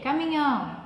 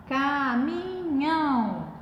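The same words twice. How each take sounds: First: Said in the usual way. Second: "caminhão" drawn out in three long syllables; teacher stretching "caminhão" syllable after syllable. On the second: Shown as a demonstration. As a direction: say "caminhão" slowly, holding every syllable. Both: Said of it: "aquela separação que nós aprendemos".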